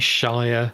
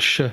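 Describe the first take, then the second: First: The ending rhymes with 'fire'. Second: The ending is a bare 'sh' sound. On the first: The speaker calls it wrong. "If you say Shire, you know, it's not great" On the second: The speaker calls it right. "We pronounce it either sh"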